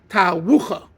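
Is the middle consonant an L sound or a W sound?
W sound. The middle consonant is a W sound. "as he would say it"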